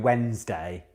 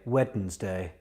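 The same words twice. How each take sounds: First: The word is said in the usual shortened way. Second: Every syllable of the word is pronounced fully. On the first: "I probably do go Wednesday like everyone else" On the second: "another word I enjoy saying right is Wednesday"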